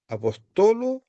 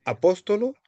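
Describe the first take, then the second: First: "apostolo" stressed on TO, pitch jumping up; teacher's model "apostolo", accent shifted to third syllable; stress on penult. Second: "apóstolo" stressed on PÓS, rising pitch; teacher's model "apóstolo", accent on second syllable; stress on antepenult. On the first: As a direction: hit the TO in "apostolo", holding it high. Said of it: "se cambia siempre en la penúltima sílaba". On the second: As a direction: hit the PÓS in "apóstolo", lift the ending. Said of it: "sobre la antepenúltima sílaba". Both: Shown as a demonstration.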